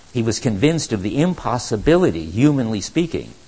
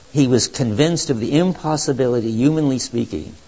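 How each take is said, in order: No difference in how they are said.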